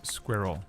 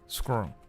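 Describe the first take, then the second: First: It is said in a British accent. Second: It is said in an American accent.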